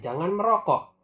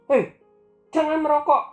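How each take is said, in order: First: It is said in a calm, plain tone. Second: It is said in an angry, shouting tone.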